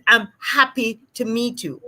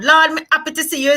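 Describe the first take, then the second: First: Careful standard English, H kept in happy; formal, sounded H. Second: Quick, higher patois, happy without its H; casual Jamaican patois. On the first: Speaking to the Governor General, happy with its H. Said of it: "if you're speaking to the Governor General". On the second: Speaking to a friend down the road, quick Jamaican patois. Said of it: "speaking to your friend down the road". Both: Shown as a demonstration.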